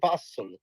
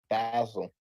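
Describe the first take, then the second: First: The name is said the local European way. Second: The name is said the American way. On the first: This is how the city's own name is said. "It's really Basel" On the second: This is how people in America say it. "everybody in America calls it Basel"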